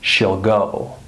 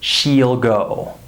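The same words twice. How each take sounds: First: The vowel is a short i sound. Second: The vowel is a long ee sound. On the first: The speaker calls it right. "I would say" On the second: The speaker calls it wrong. "I wouldn't say"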